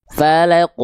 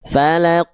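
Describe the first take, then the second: The two takes are said the same way.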